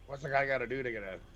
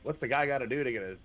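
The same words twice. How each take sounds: First: It is spoken in a put-on character voice. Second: It is spoken in a natural everyday voice. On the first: The speaker calls it wrong. "I was just totally doing the voice of a different dwarf" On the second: The speaker calls it right. "I'm just gonna speak in my regular voice"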